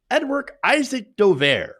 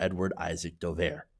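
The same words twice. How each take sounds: First: Edward Isaac Dover, slow and emphatic, stress on Isaac; name read out slowly. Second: Edward Isaac Dover, dropped low and soft, stress on Edward; disdainful name. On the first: Shown as a demonstration. Reading the article's accusation aloud, slow emphatic name. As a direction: lean on Isaac, dragging the name out. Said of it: "quoting the article". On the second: Real, not acted. Telling viewers about a disliked journalist, low and soft disdain. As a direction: let the name fall low and quiet with disdain. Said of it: "I have no love for".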